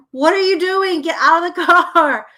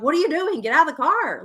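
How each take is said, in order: First: Loud, high scolding; hammed-up exasperated parent yelling; exaggerated irritation. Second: Retold parent's telling-off; irritated scolding. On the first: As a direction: scold a dawdling kid at full volume. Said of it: "I'm exaggerating 'cause I'm, like, super irritated". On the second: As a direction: scold in exasperation, holding the volume down. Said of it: "I'm not laughing at that".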